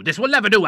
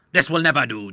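First: This will never do with never pitched high and pressed; stress on never. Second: Said in the usual way. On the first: Acted. Doctor protesting to the admiral, stressing never. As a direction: raise it the second time, leaning on never. Repeat, higher and louder.

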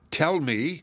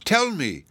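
First: Urgent, a little higher plea; first anxious tell me. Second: Higher and louder, pleading hard; pleading tell me, higher and louder; desperate plea. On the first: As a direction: ask with growing dread. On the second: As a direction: beg now, the fear breaking through. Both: A narrator's reading. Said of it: "all in a tremble".

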